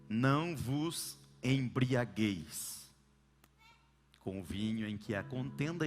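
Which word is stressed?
embriagueis. The emphasis falls on the word embriagueis. Drinking is fine as long as one does not get drunk. "colocam a força na palavra ou no verbo embriagar"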